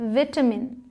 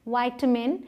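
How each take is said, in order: First: The first vowel sounds like 'it'. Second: The first vowel sounds like 'eye'. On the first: This is the British pronunciation. "British में विटामिन" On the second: This is the American pronunciation. "US मतलब American English में वाइटामिन"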